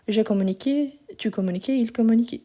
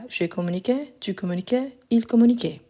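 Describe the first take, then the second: First: Final vowel of "communiqué", "communiquais", "communiquait" said as closed é; closed regional vowel. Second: Final vowel of "communiquais" and "communiquait" said as open è; open standard vowel. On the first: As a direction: end "communiquais" on a tight é, as in some French regions. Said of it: "parlent d'une façon plus fermée". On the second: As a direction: end "communiquais" on an open è, not a closed é. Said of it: "Mais voilà". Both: Shown as a demonstration.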